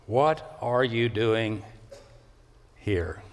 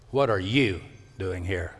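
First: What are you doing, slowed right down, then a pause before here?; broken up slowly. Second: What are you doing here? as one phrase, weight on What; What are you doing here? at a normal pace, no pause; said straight through. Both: Shown as a demonstration. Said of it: "if it were broken up".

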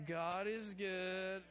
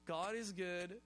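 First: "God is good" drawn out, leaning on "is"; preacher's slow emphatic declaration; slow proclamation. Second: Said in the usual way. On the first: Shown as a demonstration. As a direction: stretch "God is good" slowly and stress "is". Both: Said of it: "let's do that".

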